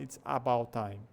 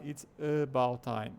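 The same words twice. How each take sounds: First: ABOUT starting on an open "ah"; "it's AH-bout time", first vowel unreduced; wrong full A. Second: ABOUT starting on a clear neutral "uh"; schwa pointed out. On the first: Teacher showing what not to say, full A in ABOUT. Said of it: "A gente não fala". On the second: Teacher asking learners to notice, schwa in ABOUT. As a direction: show off the "uh" in "it's uh-BOUT time". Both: Shown as a demonstration.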